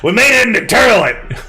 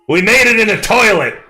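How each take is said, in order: First: Toilet is said in the character's accent, 'turlet'. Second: Toilet is said in a plain accent.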